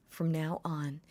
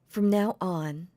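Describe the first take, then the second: First: Said in the usual way. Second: "from now on" said slower and louder; slow, louder declaration. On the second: Shown as a demonstration. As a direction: lean hard on "from now on". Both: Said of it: "I gotta get back into the character".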